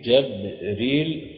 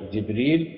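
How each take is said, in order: First: جبريل slowly with an a after the jim, "Jabril"; fatha on jim. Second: جبريل with an i after the jim, "Jibril"; kasra on jim. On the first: Teacher showing students the Qur'anic variants, fatha on the jim of جبريل. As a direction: open the first vowel of جبريل to a short a, drawn out. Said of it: "فتح الجيم". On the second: Teacher showing students the Qur'anic variants, kasra on the jim of جبريل. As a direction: say جبريل with the first vowel a short i. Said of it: "بكسر الجيم". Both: Shown as a demonstration.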